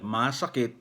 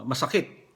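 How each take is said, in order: First: "masakit" with a long first A; long first vowel. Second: "masakit" with all short vowels; no long vowel. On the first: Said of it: "yung first syllable niya, long vowel". ("masakit": mahabang unang A) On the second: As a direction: say "masakit" evenly and briskly. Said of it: "walang long vowel ang salitang masakit". ("masakit": walang mahabang patinig) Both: Shown as a demonstration.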